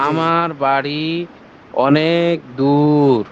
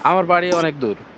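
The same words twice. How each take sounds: First: The vowels are drawn out and stretched. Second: The vowels are said at normal length.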